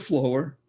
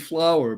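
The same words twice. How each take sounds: First: It begins like the word 'flow'. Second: It rhymes with the word 'flour'. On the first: Something with life flowing through it. "because there's life flowing through it" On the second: The ordinary name for the plant. "we've been trained to think that that's a flower"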